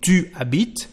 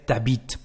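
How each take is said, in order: First: The vowel of tu is fully pronounced. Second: The vowel of tu is dropped. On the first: This is the correct standard form. "instead of saying tu habites" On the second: This is the casual spoken form. "there is a contraction"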